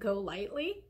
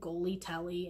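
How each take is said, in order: First: It is said as go lightly. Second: It is said as goly telly. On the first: The speaker calls it right. "I heard somebody pronounce it GoLytely" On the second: The speaker calls it wrong. "I kept calling Goly Telly"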